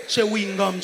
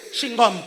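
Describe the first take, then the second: First: "Chewing-gum" with every syllable sounded; careful pronunciation. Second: "Chewing-gum" run together as "shingom", Gabonese accent. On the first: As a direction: say "Chewing-gum" in full, as chew-wing-gum. (« Chewing-gum » articulé en entier) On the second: (accent gabonais, « Chewing-gum » dit « chingomme ») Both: Shown as a demonstration. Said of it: "Avec mon accent".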